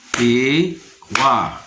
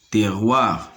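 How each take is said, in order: First: "Terroir" split in two, te-rroir, first part rising; syllable by syllable. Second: Said in the usual way. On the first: Shown as a demonstration. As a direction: pause between the two beats of "Terroir". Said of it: "se compose de deux syllabes". (« Terroir » découpé en deux : te… rroir)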